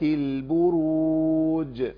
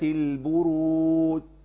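First: The final jeem is released with a clear bounce. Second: The final jeem is dropped with no echoing bounce. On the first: The speaker calls it right. "نقراها زي ما سمعناها" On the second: The speaker calls it wrong. "منهم اللي بيضيعها خالص"

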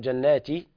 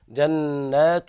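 First: The final ta is said with an i vowel. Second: The final ta is said with a u vowel. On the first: The speaker calls it wrong. "والبعض يقرأ جناتي خطأ" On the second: The speaker calls it right. "الصواب التاء مضمومة"

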